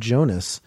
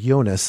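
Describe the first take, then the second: First: The name is pronounced the English way. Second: The name is pronounced the German way.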